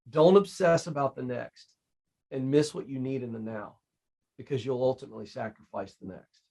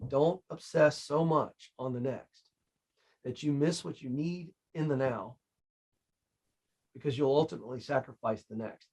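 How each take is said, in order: First: It is said at a normal pace. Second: It is said more slowly.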